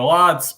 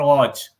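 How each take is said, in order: First: Lodz as "lahdz", drawn out slowly; first option. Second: Lodge ending in a "sh"-like "dge"; second option. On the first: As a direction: repeat Lodz slowly with a DZ ending. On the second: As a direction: repeat Lodge slowly as the alternative. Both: Shown as a demonstration. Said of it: "Whatever is easier for you".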